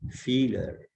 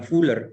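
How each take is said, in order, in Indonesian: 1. Vokalnya bunyi 'ü' depan yang dibulatkan. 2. Vokalnya bunyi 'oo' biasa. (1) "tapi Schüler" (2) "Bukan Fuller"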